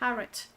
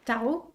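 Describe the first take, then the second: First: It is pronounced with an English pronunciation. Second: It is pronounced with a French pronunciation. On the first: "the part of the brain that thinks it knows English, says tarot" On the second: "my French brain tells me tarot"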